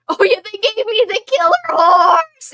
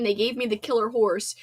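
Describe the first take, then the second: First: Mock scream. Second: Said in the usual way. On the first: Streamer reenacting her favorite movie scream for chat, hammed-up loud yell. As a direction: belt the line out as a hammed-up scream. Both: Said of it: "I also like to scream".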